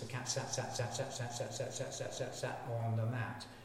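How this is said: The phrase is broken up with stuttered repetitions. An expanded stretch of DNA repeats itself. The speaker calls it wrong. "it stutters"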